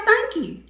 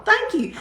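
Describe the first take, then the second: First: Simple thanks. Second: Smiling thanks. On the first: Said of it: "why couldn't you just say". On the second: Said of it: "and smile". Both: Shown as a demonstration.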